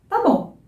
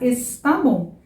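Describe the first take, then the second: First: The first word is shortened to one syllable. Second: The first word is said in full, two syllables. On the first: This is how people talk every day. "A gente fala tá bom" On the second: This is the formally correct form. "O certo é falar está bom"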